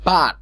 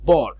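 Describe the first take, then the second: First: The vowel sounds like 'er'. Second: The vowel sounds like 'or'. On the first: The speaker calls it right. "বার, not বর" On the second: The speaker calls it wrong. "নট বর"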